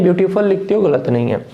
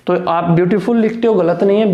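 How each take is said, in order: First: ब्यूटीफुल said as byootipul, with a plain p and a reduced u; unaspirated variant. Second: ब्यूटीफुल said as byootiphool, with a breathy ph and a full oo; aspirated variant. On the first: Teacher showing students the second accepted way to say ब्यूटीफुल. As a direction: say ब्यूटीफुल with plain p and short schwa ending. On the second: Teacher showing students the first accepted way to say ब्यूटीफुल. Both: Shown as a demonstration. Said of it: "ब्यूटीफुल भी है और ब्यूटीफुल भी है".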